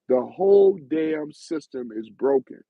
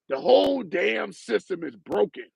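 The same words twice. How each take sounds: First: It is read in his normal voice. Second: It is read in a put-on mean voice.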